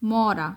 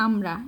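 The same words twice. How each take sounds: First: মরা starting straight on m, "maw-raa"; careful "MAW-raa" for মরা; corrected reading. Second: আমরা with an "aa" at the front, run as "aam-ra"; misread word. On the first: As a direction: say মরা with no "aa" before it. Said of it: "এখানে আমরা না". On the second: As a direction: say আমরা as the student's slip, "AAM-ra". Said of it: "এখানে তুমি হচ্ছে বলছিলা". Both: Shown as a demonstration.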